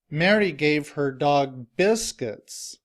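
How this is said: The stress is on biscuits.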